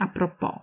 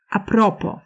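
First: A propos as a pro-PO; stress on last syllable. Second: A propos as a PRO-po; stress on second-last syllable. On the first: Lecturer showing the French-style form, stressed on PO. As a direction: land the beat on the final syllable of a propos. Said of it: "a nie a propos". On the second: Lecturer showing the increasingly common form, stressed on PRO. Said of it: "akcent przesuwa się na przedostatnią sylabę". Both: Shown as a demonstration.

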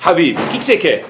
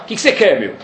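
First: Kind, sincere question; not sarcastic. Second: Impatient, brusque retort; sarcastic. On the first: Hillel greeting the man who came to provoke him, sincerely. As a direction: ask it gently, meaning it. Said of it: "E não foi sarcasticamente". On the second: Hillel answering the man at the door, sarcastic. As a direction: snap it back like he's being bothered. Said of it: "Só que no Talmud não tá escrito isso". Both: Shown as a demonstration.

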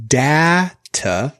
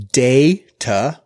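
First: Data with short A as in cat, DA-tuh. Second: Data with long A as in day, DAY-tuh. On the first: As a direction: say data as DAT-uh. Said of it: "first A is a short A". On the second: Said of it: "first A is a long A". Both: Shown as a demonstration.

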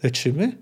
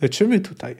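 First: Rising tune on LECZYMY; questioning. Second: Falling tune on LECZYMY TUTAJ; statement of fact. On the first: Elf questions the medics, LECZYMY rising into a question. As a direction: ask LECZYMY as a question, lifting the end. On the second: Elf notes what is happening in the tent, LECZYMY TUTAJ as a falling statement. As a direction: state LECZYMY TUTAJ, letting it fall at the end. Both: A narrator's reading. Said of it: "stwierdził fakt".

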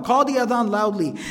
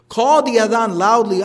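First: Said in the usual way. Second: Loud. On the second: Shown as a demonstration. Telling the shepherd to call out, louder voice. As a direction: Call the adhan loudly, spoken noticeably louder.

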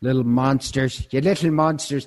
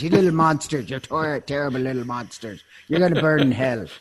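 First: A hammed-up Irish scold, a bit higher and louder; mock Irish accent. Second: A hammed-up Irish brogue, higher and louder, scolding; a fire-and-brimstone Irish scold aimed at naughty kids; mock Irish accent. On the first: Scolding the chocolate-stealing kids, mock Irish accent. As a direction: play the Irish nun scolding the little monsters in a mock Irish accent. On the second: Condemning the chocolate thieves to hell, hammed-up Irish accent. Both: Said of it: "take on the Irish accent".

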